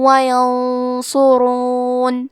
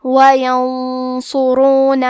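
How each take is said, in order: First: وینصرون with a merged nasal hum, very slow; وینصرون very slowly with nasal hum; ghunna. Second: وَيَنصُرُونَ with the nasal hum made thick and heavy before ص, slow; وَيَنصُرُونَ slowly, heavy nasal ن; heavy ghunna. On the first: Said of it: "غنہ اور تشدید کے ساتھ ادا کریں". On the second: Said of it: "یہ غنہ کو بھی بھاری آواز میں پڑھیں گے". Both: Shown as a demonstration.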